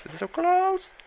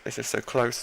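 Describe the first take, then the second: First: High squeaky burst of nerves; tense squeal. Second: Said in the usual way. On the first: Real, not acted. A nail-biter match, high nervous squeal.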